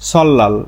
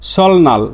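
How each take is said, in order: First: The consonant after the l is an l. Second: The consonant after the l is an n. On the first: The speaker calls it right. "এর সঠিক উচ্চারণ হচ্ছে সল্লাল" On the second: The speaker calls it wrong. "আমরা সবাই এভাবে এটা উচ্চারণ করি"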